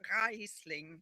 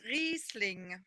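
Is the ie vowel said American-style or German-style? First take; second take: American-style; German-style. First: The ie vowel is said the American way. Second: The ie vowel is said the German way. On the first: The speaker calls it wrong. "not Riesling" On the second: The speaker calls it right. "because it's Riesling, for example"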